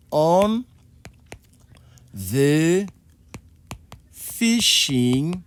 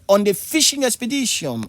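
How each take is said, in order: First: "On... the... fishing" with long pauses between words; slow, spaced-out teaching delivery; word-by-word demonstration. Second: Said in the usual way. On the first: Shown as a demonstration. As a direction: dictate "On the fishing" one word at a time.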